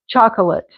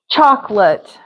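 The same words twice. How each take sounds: First: The word is said with three syllables. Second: The word is said with two syllables. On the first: "You could put another little chocolate. Chalk. A. Lut" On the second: "Chalk lot. ... That's how I would say it"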